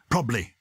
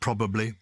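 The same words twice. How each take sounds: First: A syllable is dropped from the word. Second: Every syllable of the word is pronounced. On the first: The speaker calls it wrong. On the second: The speaker calls it right.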